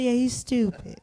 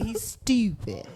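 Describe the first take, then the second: First: Said in the usual way. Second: "he's stupid" said slow and stretched, praising; drawn-out stupid. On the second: Shown as a demonstration. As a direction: draw out "stupid" slowly as a compliment. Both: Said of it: "Not stupid, he's stupid".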